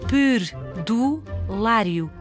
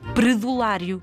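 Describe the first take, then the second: First: The R sound is pronounced carefully. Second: The R sound is pronounced carelessly. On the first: The speaker calls it right. "Temos de dizer perdulário" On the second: The speaker calls it wrong. "Não podemos dizer perdulário"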